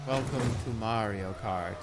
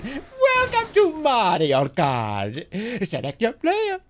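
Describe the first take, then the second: First: Soft, slow, bored mumble; low energy. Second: Slow stretched announcer voice, climbing higher at the end; big showman game announcer; hyped announcer. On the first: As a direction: say it like you can't be bothered. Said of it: "super low effort and very low energy". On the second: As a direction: sell it like a game intro. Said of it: "I could have done". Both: Shown as a demonstration.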